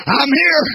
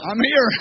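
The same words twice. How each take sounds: First: Louder, climbing emphasis on here; emphatic. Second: Said in the usual way. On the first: Shown as a demonstration. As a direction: hit it harder the second time. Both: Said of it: "repeated, second louder".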